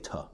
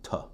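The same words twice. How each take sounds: First: The word has a short, weak vowel. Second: The word has a short, weak vowel.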